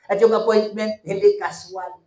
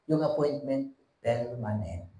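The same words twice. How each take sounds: First: Louder, punchy first take; emphatic preaching. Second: Soft, weighty close. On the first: Preacher stressing the appointment to church. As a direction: drive the point home. Rhetorical contrast, rising. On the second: Preacher softly sealing the point to church. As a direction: drop to a softer, lower voice. Rhetorical contrast, dropping. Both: Acted.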